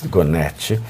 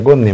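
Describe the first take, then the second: First: The name ends with an added final vowel. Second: The name ends on the final consonant. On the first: The speaker calls it wrong. "adoro falar Gonetti" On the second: The speaker calls it right. "é Gonet"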